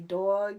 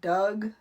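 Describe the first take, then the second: First: The vowel is said the general American way. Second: The vowel sounds like the one in Doug. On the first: "they don't say dog" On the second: "it'd be like Doug"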